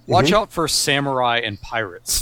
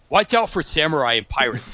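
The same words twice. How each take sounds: First: It is read in a plain, ordinary voice. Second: It is read in an assumed character voice. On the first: The speaker calls it wrong. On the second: The speaker calls it right.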